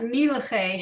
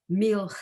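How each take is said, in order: First: A vowel is sounded between the L and ch. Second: The L and ch blend with no vowel between. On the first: The speaker calls it wrong. "the reason it's not milache has to do with the fact that there's no vowels under the lamed" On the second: The speaker calls it right. "I'd read those two as coming together"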